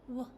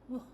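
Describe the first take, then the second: Both takes have the same delivery.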